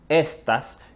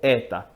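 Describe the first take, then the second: First: The s sounds are fully pronounced. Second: The s sounds are dropped completely. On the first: This is the standard form. "que es la forma estándar de pronunciar esa palabra" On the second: This is how Dominican Spanish says it. "omití las S por completo"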